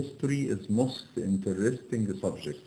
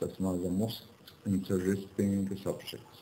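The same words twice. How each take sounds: First: Slow error reading. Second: "the most" rises, "interesting subject" is drawn out slow and soft; stressed correction. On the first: Teacher reads the wrong sentence aloud slowly to the students. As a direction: read "history is most interesting subject" slowly, word by word, without "the". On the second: Teacher gives students the corrected "the most interesting subject". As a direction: lift the word "the" on a rising tune, then say "interesting subject" slowly. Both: Shown as a demonstration. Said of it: "يبقى مش اسمها the most".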